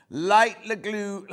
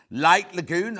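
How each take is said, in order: First: Light Lagoon dragged out slowly, syllable by syllable; slow right down as if tripping over the name; struggling to get the fabric name out, so she says it slowly; slow careful try. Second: Said in the usual way. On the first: Shown as a demonstration. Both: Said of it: "God, I can't even say it".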